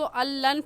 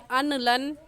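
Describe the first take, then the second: First: The n merges into a doubled l sound. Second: The n is pronounced clearly before the l. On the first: The speaker calls it right. "इस लफ्ज़ को अल्लन पढ़ेंगे" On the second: The speaker calls it wrong. "अनलन नहीं पढ़ेंगे"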